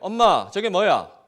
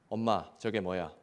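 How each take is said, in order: First: It is said louder still, the loudest. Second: It is said louder than before.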